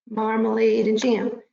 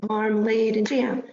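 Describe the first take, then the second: No difference in how they are said.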